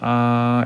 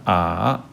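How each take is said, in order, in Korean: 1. 음높이가 일정하게 유지돼요. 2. 음높이가 내려갔다가 다시 올라와요. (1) "일성은 아 라고 하면서 ... 입에서 그대로 나는 느낌으로 말하면 아이들의 성조는 일정하게 납니다. 아 이렇게요" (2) "삼성의 경우는 아"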